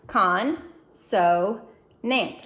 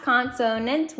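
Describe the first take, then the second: First: Con, so, nant read as three separate beats with pauses between; syllable by syllable. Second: Consonant blended smoothly into one word with no breaks; said fast as one word. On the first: Teacher reading each syllable part to students, separated. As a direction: tap out Con, so, nant one part at a time. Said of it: "let's read each syllable part". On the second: Teacher blending the parts back into a word, said fast. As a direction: say Consonant whole, quickly. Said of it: "Let's say it fast". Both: Shown as a demonstration.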